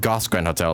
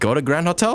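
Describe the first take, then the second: First: The name starts with one syllable like 'goss'. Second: The name starts with two syllables like 'go to'. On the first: This is how the name was assumed to sound. "I thought it was pronounced like" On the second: This is how the game pronounces the name. "is that how you pronounce it? Like"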